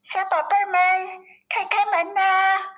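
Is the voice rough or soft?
soft. It is said in a softer, delicate voice.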